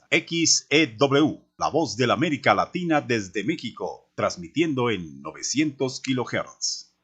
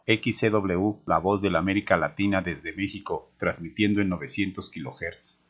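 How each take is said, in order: First: The voice is modulated and resonant like a broadcaster. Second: The voice is flat and plain, without modulation. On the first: The speaker calls it right. "si utilizo la impostación, hay un cambio muy importante" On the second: The speaker calls it wrong. "suena plano y sin trascendencia"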